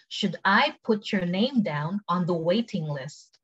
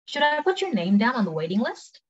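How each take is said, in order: First: Very slow, word by word; slow, careful model question; slow take. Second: Brisk, higher-pitched question; quick, linked-up model question; quick take. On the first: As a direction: draw it out for learners to follow. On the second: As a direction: ask it at conversational speed. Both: Shown as a demonstration. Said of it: "cepet sama pelan".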